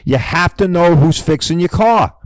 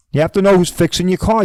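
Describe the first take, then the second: First: Said in the usual way. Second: "know" pushed up and hit hard, rising at the end; stress on know. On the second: Shown as a demonstration. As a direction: lean on "know" to drive it home.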